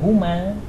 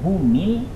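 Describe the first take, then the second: First: Hum is linked with an a vowel. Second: Hum is linked with an i vowel. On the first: "Kenapa tak baca humil atau humal?" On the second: "Kenapa tak baca humil atau humal?"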